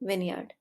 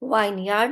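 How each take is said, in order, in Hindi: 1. पहला अक्षर 'win' जैसा लगता है। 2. पहला अक्षर 'wine' जैसा लगता है। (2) "वाइन यार्ड मत पढ़िएगा"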